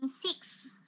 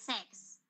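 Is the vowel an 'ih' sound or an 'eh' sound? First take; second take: ih sound; eh sound. First: The vowel is a short 'ih' sound. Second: The vowel is an open 'eh' sound. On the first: The speaker calls it right. "instead of saying six" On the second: The speaker calls it wrong. "nasabi po ay sex"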